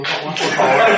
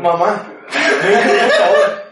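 First: Begging mom on the phone, half laughing; suffering plea. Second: Drawn-out whiny plea, higher, louder and very slow; mock crying plea. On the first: Retold or imitated. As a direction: plead like you can barely hold it. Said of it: "pero ya casi sufriendo". (súplica desesperada entre risas) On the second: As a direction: wail it out like a desperate kid, laughing. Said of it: "Llorando, llorando". (súplica llorona exagerada, lenta y aguda)

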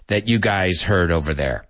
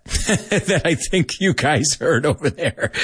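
First: Said in the usual way. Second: Words shaken by laughter, a little higher; amused, giggling through the phrase; laughing. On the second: Real, not acted. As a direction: talk through a real chuckle. Laughs while repeating the phrase.

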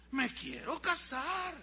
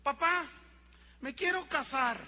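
First: Put-on slow, high, emphatic child's demand; insistent child. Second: Put-on higher-pitched child's announcement; small child announcing. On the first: Boy repeats marriage wish to doubting dad, slow emphatic insistence. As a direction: stretch each word to prove you mean it. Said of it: "te estoy hablando en serio". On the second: Little boy tells dad he wants to marry, high bold announcement. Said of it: "llega un niño y dice".

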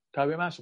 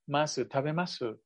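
First: "tabemasu" with the final u sounded clearly and rising; "tabemasu" said with every vowel voiced; full final u. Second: "masu, tabemasu" with the final u swallowed, almost "mas"; "tabemasu" ending on a barely heard u. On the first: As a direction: let the u at the end of "tabemasu" ring. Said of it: "se suele pronunciar la U". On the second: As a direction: clip the last u of "tabemasu" to a whisper. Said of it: "es una U como tragada". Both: Shown as a demonstration.

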